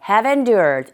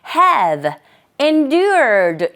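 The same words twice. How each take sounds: First: The two words are said quickly and linked together. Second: The two words are said separately with a break. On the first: "문장 속에서 빨리 발음되는 경우에는 have endured, have endured 이렇게 됩니다" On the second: "have, endured 이지만"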